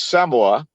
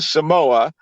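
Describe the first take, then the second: First: It is said with the local Samoan pronunciation. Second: It is said with the usual American pronunciation.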